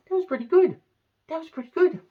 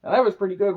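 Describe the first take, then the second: First: High, cooing pet voice; baby talk to cat. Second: Said in the usual way. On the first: Acted. Praising his cat producer in high baby talk. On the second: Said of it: "repeated to cat".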